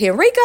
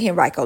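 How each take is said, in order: First: "Henrico" as hen-REE-koh; Henrico with EE sound. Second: "Henrico" as hen-RYE-koh; Henrico with long I. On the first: Host asking listeners for help, "Henrico" as hen-REE-koh. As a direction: stress a "ree" in the middle of "Henrico". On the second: Host asking listeners which is correct, "Henrico" as hen-RYE-koh. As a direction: stress a "rye" in the middle of "Henrico". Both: Shown as a demonstration. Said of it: "tell me how to pronounce your name".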